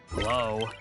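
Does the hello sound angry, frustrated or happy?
frustrated. It is said in a frustrated tone.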